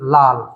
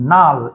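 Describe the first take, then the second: First: The word begins with an l sound. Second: The word begins with an n sound. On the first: "খেয়াল করেন দুটো ল আছে এখানে" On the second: "একটাকে পরিবর্তন করে দিলাম"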